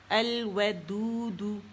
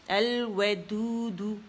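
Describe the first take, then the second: The two takes are said the same way.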